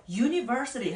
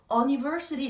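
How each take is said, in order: First: Said in the usual way. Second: "university" starting with "uh", no y sound; wrong pronunciation. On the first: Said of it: "university 할 때도". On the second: Shown as a demonstration. Teacher shows how university is not read, mispronounced first vowel. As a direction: misread "university" as uh-niversity. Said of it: "이렇게 읽지 않습니다".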